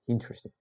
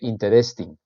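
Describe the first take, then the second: First: The stress falls on the first syllable. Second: The stress falls on a later syllable. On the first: The speaker calls it right. "the pronunciation is interesting at the beginning of the word" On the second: The speaker calls it wrong. "You don't say interesting"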